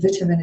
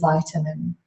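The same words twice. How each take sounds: First: The word is said in a British accent. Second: The word is said in an American accent. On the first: "vitamin is very British" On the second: "Australians and Americans tend to say vitamin"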